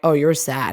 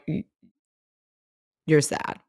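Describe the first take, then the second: First: It is said in a mocking, dismissive tone. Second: It is said in a sincere, sympathetic tone.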